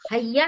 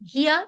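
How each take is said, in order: First: The first vowel sounds like 'ay'. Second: The first vowel sounds like 'ee'. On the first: The speaker calls it wrong. "हैया नहीं होगा" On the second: The speaker calls it right. "हिया तजूबू"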